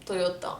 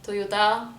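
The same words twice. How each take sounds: First: Toyota with round Os, softly; Lebanese pronunciation. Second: Slow French-style Toyota; French accent. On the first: Showing how everyone in Lebanon says it, crisp Toyota. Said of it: "In Lebanon, everyone say". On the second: Guessing the French version, French accent. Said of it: "I imagine that's in French". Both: Shown as a demonstration.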